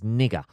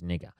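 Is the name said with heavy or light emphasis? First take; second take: heavy; light. First: The name is said with heavy, exaggerated emphasis. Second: The name is said with light, toned-down emphasis. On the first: The speaker calls it wrong. "I don't know why I seem to pronounce that like too much there" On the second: The speaker calls it right. "So that's better"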